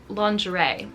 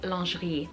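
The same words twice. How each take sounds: First: It is said in English, ending in an 'ay' sound. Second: It is said in French, without the 'ay' ending. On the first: "we borrow in English have an A sound on the end" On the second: "in French this should be lingerie"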